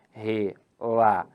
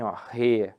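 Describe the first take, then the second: First: Relatório split slowly as re-la-tó-rio, the ending rio kept as one diphthong syllable; syllabified as paroxytone. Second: Relatório split as re-la-tó-ri-o, ri and o as separate syllables; syllabified as proparoxytone. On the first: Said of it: "Assim, ó". (relatório separado devagar: re-la-tó-rio, com ditongo no final) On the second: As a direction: break relatório with the ending in hiatus, ri-o. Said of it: "aí eu vou separar assim". (relatório separado como re-la-tó-ri-o, em hiato) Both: Shown as a demonstration.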